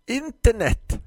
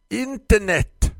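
First: Put-on high, loud old shop lady spitting the word out; hissing florist. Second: High and loud, the word dragged out slowly; repeated hiss. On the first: Grumpy florist hisses the word at her customer. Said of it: "fräste Tisten". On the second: Acted. Florist repeats the word slowly to the confused customer. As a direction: repeat it slowly as if to a dim child. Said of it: "och upprepade".

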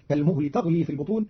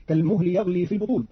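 First: تغلي opened with "ta", not "ya"; feminine ta. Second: Said in the usual way. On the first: Shown as a demonstration. Teacher showing Qalun's reading, تغلي starting with ta. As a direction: say تغلي as "taghli". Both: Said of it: "بتاء التأنيث".

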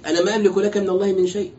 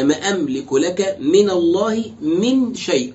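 First: Said in the usual way. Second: Slow, deliberate teaching emphasis; slow emphatic repeat. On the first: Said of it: "يا ما أملك لك من الله من شيء". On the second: Shown as a demonstration. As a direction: repeat ما أملك لك من الله من شيء very slowly, weighing each word. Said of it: "ومن زائدة لتأكيد العموم".

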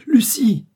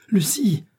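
First: Much higher, very loud cry; frantic shout. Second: High, loud frantic call; crying out. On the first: Lover desperately seeking Lucie in the cell, full shout. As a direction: call her name at full pitch. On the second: Lover bursting into the cell, crying out. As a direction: shout her name as you rush in. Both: A narrator's reading. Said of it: "criait-il".

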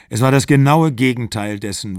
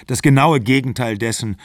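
First: Genaue weighted and falling; stress on genaue. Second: Genaue weighted in the echo; stress on genaue. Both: A narrator's reading. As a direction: lean on genaue.

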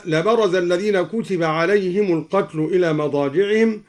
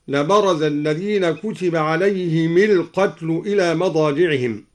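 First: Said in the usual way. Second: عليهم القتل linked as "alayhimil-qatl"; i on the mim. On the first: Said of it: "كسر الدوري الميم مع الهاء وصلا". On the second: Shown as a demonstration. Teacher shows al-Duri's linking of عليهم القتل, "alayhimil-qatl". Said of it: "كسر الدوري الميم مع الهاء وصلا هكذا".

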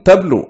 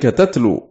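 First: تبلو with a "b" after the t, tablu; read with ba. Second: تتلو with a second "t", tatlu; read with ta. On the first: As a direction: say تبلو as tablu, b rather than t. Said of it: "بالباء". (تبلو بالباء) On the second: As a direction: say تتلو as tatlu, t rather than b. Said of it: "بالتاء". (تتلو بالتاء) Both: Shown as a demonstration.

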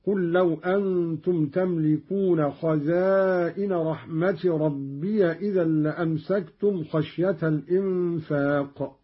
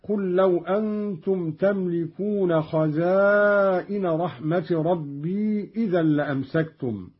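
First: "ربي" as rabbiya before the next word; open ya. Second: Said in the usual way. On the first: Shown as a demonstration. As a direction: put an a-vowel on the ya of "ربي": rab-bi-ya. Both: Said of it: "قرأ قالون بفتح الياء هكذا".

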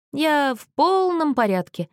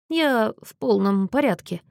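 First: Put-on slow slurred drunk voice, higher; town drunk. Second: Put-on drunken mumble, words smeared; town drunk. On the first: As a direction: drag the words out, tongue tripping. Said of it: "заплетающимся языком повторил Мэтью". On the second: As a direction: mumble it like a drunk insisting he's fine. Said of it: "неразборчиво пробормотал он". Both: A narrator's reading.

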